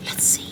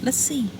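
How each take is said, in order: First: Whispered Let's see. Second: High, soft teasing Let's see. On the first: Coach to wife, whispered dare. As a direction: breathe it as a whisper. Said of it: "whispered repeat". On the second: Coach to wife, teasing dare. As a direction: dare him lightly. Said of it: "teasing repeat". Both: Shown as a demonstration.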